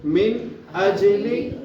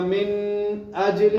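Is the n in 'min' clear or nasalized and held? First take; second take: clear; nasalized. First: The n is clear and short, without nasal holding. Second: The n is nasalized and held longer. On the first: The speaker calls it right. "इसलिए हम यहाँ पर गुन्ना नहीं करेंगे, बल्कि हम कैसे पढ़ेंगे इसको, ऐसे पढ़ेंगे" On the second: The speaker calls it wrong. "अगर यहाँ पर मैं गुन्ना करूंगा तो गलत हो जाएगा, मिन अजली करेंगे तो गलत होगा"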